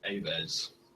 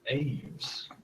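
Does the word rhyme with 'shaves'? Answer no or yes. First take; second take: no; yes. First: It is said like the Latin word for birds. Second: It is said to rhyme with the word shaves. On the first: "I was pronouncing it like the Latin for bird" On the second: "as in rhymes with shaves"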